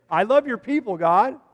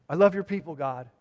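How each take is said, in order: First: Louder, lifted repeat of "I love your people, God"; emphatic declaration. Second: Said in the usual way. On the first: Retold or imitated. Preacher voicing the psalmist's love to God, emphatic.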